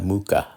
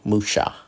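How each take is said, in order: First: The middle consonant is a k sound. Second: The middle consonant is an sh sound. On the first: The speaker calls it wrong. "The C H A has a strong K sound" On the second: The speaker calls it right. "with an S, so it's a sha"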